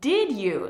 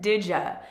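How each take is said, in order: First: The d and y sounds stay separate. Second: The d and y merge into a j sound.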